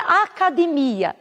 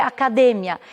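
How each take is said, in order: First: Academia stressed on the MI, as in Portuguese; Portuguese pronunciation. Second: Academia stressed on DE, Spanish style; Spanish pronunciation. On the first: Teacher showing the Portuguese word, stress on MI. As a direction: stretch academia on MI. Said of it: "Em português seria academia". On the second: Teacher showing the highlighted syllable, stress on DE. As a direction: hit DE in academia, short final ia. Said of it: "está grifada a sílaba D". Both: Shown as a demonstration.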